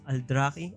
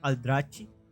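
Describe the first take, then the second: First: The middle consonant is a hard k sound. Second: The middle consonant is a ch sound. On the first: The speaker calls it right. "The right pronunciation for this is Aldraki" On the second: The speaker calls it wrong. "not Aldrachi"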